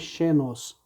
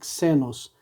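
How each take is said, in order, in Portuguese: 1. A palavra começa com som de sh. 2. A palavra começa com som de ks. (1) "não é xenos" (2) "e sim xenos ... na palavra táxi"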